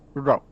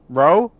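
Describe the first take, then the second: First: The r is a quick, staccato tongue tap. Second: The r is a smooth English-style r. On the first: The speaker calls it right. "and then Japanese. ... It's much more stac staccato in the Japanese" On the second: The speaker calls it wrong. "I'll say it in English first"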